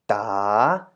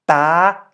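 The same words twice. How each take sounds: First: The pitch dips and then rises. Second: The pitch stays high throughout. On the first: "rising tone" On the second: "To make it a high tone"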